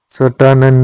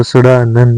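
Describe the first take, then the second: First: सटानंद with retroflex t in the middle; wrong hard t. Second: सड़ानंद with a flapped retroflex r; correct flapped r. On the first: Teacher showing learners the mistake, सटानंद with hard t. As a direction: say सटानंद as sa-taa-nand. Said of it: "सड़ानंद होता है". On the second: Teacher giving learners the correction, सड़ानंद with flapped sound. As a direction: say सड़ानंद as sa-raa-nand, tongue flicked. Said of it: "सटानंद नहीं होता". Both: Shown as a demonstration.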